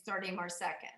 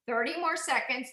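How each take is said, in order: First: Quiet. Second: Said in the usual way. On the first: Real, not acted. Instructor counts down, repeats fading.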